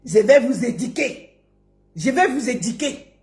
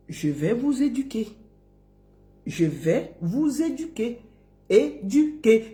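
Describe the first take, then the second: First: "éduquer" as a quick "édiquer"; mock quote, "i" for "u" in "éduquer"; mispronounced quote. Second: Soft, slow, rounded "u" in "éduquer"; gentle spaced "é-du-quer" for "éduquer"; correct pronunciation. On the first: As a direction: mimic the "di" slip in "éduquer". Mocking, then correcting the word. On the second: Shown as a demonstration. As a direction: model "éduquer" with care, stretching it out. Modelling the correct word.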